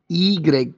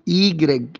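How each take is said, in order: Both takes have the same delivery.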